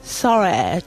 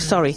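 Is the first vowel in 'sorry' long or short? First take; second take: long; short. First: The first vowel is long and drawn out. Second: The first vowel is short and plain. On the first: This is how the posh accent says it. "Ellos no dicen sorry así, dicen sorry ... larga" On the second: This is the ordinary everyday way of saying it. "Tú dices sorry"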